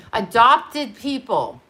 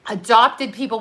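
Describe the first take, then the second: First: Slowly, weighing each word; drawn out like a lecture point; slow and deliberate. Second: Said in the usual way. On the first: Real, not acted. Restart slower and deliberate.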